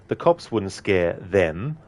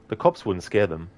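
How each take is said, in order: First: The line is said with strong emphasis on 'them'. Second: The line is said plainly without special emphasis. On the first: The speaker calls it right. "It's putting emphasis on Mott and um, Emil Hartman" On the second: The speaker calls it wrong. "instead of just saying"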